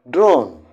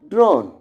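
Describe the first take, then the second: First: The vowel sounds like 'oh'. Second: The vowel sounds like 'oh'.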